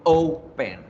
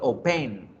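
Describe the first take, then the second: First: The stress is on the first syllable. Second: The stress is on the second syllable. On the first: The speaker calls it right. "la fuerza la hago en la O" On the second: The speaker calls it wrong. "Yo no digo open"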